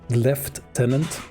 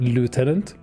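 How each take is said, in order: First: It is said in a British accent. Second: It is said in an American accent. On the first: "In the on the island that is England, they they say lieutenant" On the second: "like in the Americas, you say lieutenant"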